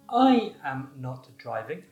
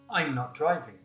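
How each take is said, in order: First: The words are said fully and separately. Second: The first words are joined into one contracted syllable.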